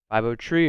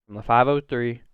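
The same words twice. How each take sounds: First: "tree" said with a plain t, no th sound; local five oh tree. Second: Said in the usual way. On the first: Shown as a demonstration. Joking about his home area code, says "tree". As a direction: drop the th in "tree" like an Oregon local. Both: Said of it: "if you will".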